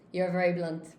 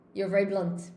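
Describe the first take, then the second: No difference in how they are said.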